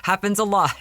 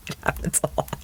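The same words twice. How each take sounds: First: Said in the usual way. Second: Hushed confidential whisper; whispered aside. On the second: Shown as a demonstration. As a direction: lean in and whisper it like a secret. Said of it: "trust me".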